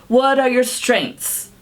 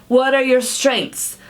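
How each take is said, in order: The two takes are said the same way.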